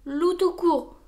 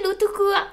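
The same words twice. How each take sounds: First: Grumbling. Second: High, loud amused repeat of Loup tout court. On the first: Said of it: "bougonna Loup". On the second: Gros Louis playfully repeats Wolf's name back to him, amused. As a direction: echo his words back, tickled. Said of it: "fit Gros Louis amusé". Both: Acted.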